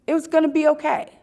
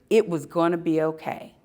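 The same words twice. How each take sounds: First: "It was gonna be okay" repeated quicker and brighter, stress on "gonna"; emphatic repeat. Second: Said in the usual way. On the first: Real, not acted. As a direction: say it again faster with sure conviction.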